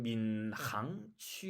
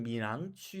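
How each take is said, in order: First: 민항취 said the Chinese way, with a husky, rasped h; Chinese pronunciation. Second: 민항취 said the Korean way, with a soft, light h; Korean pronunciation. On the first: Teacher showing how Chinese people say the district, Chinese pronunciation. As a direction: say 민항취 with a rough throat h. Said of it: "사실 중국 사람은 민항취". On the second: Teacher showing how Koreans say the district, Korean pronunciation. 한국 사람들은 민항취 이렇게 말하는데. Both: Shown as a demonstration.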